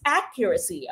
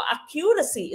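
First: Accuracy stressed as AC-cu-ra-cy; correct first-syllable stress. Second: Accuracy with second-syllable stress, ac-CU-ra-cy; wrong stress demo. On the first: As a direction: put the weight on AC at the start of accuracy. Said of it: "It should be pronounced as". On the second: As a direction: show the mistake, stressing CU in Accuracy. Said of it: "is wrong". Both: Shown as a demonstration.

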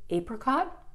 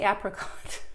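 First: Apricot with long AY, "AY-pricot"; Canadian apricot. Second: Apricot with short A, "AP-ricot"; other apricot. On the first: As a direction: say apricot as "AY-pri-cot". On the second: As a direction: say apricot as "AP-ri-cot". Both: Shown as a demonstration. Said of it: "Sometimes I say words in a weird and wonderful way".

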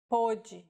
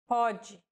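First: "pôde" with a closed stressed ô. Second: "Pode" with an open stressed o. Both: Shown as a demonstration. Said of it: "used to differentiate homographs".

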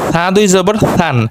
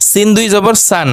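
First: সা and সান begun with a soft th-like sound. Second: সান begun with a firm, hissed s; hard S. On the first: Teacher drilling two S sounds, soft সান. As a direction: soften the স of সান into a gentle th. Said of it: "আর একটা নরম". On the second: Teacher drilling two S sounds, hard সান. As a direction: keep the স of সিন and সান hard and sharp. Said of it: "একটা শক্ত". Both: Shown as a demonstration.

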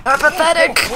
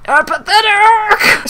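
First: Raised, high exclamation; hammed-up indignant cry; mock outrage. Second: Slow, very high, loud scream; drawn-out full-volume shriek; screamed mock outrage. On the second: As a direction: scream the word and stretch it. Second, bigger outraged cry.

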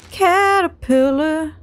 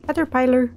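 First: CATERPILLAR stretched out slowly, syllable by syllable; drawn-out CATERPILLAR. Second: Said in the usual way. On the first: Real, not acted. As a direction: draw out every part of "Caterpillar". Repeats the word drawn out.

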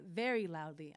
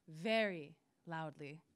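First: Said in the usual way. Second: VERY drawn out slowly and set apart; slow, lower stress on "very"; emphatic repeat. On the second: A narrator's reading.

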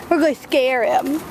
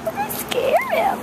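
First: Said in the usual way. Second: Put-on very high cooing baby talk; puppy voice. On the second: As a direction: squeak it at the dog in a tiny high voice. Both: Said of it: "That's my puppy voice".

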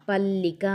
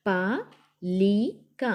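First: "పల్లిక" as one word with a held L; pressed double L. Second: "పలిక" very slow, split as pa, li, ka; letter by letter. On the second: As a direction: sound out "పలిక" with long gaps between letters. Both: Shown as a demonstration. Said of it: "ఒత్తి పట్టి చదవాలి".

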